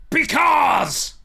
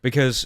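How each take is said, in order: First: Huge high yell on Because; full-throat promo scream; impassioned shout. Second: Said in the usual way. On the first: Retold or imitated. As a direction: explode the word Because. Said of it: "impassioned pronunciation of the word because". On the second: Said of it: "pronunciation of the word because".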